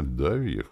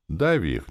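First: Less sure. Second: Firm, matter-of-fact order; unperturbed. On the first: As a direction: say it with fading confidence. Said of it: "ответил он уже не так уверенно". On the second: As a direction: state it confidently, without any fuss. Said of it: "невозмутимо заявил Дема". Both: A narrator's reading.

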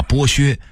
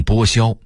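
First: Said in the usual way. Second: 剥削 as bōxiāo; workers' misreading. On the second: Shown as a demonstration. Narrator quoting factory masters' misreading. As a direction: say 削 in 剥削 as xiāo, not xuē. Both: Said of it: "一直把剥削念成".

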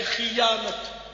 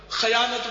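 First: "خیانت" slowly as khiyanat, i after kh; stretched demo "خیانت", khi-yaa-nat; correct pronunciation. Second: "خیانت" as khayanat, a after kh; mispronounced "خیانت" with kha in front; common wrong pronunciation. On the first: Shown as a demonstration. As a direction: say "خیانت" carefully starting khi-. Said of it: "ہے خیانت". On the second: Retold or imitated. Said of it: "خیانت بولتے ہیں ہمارے".

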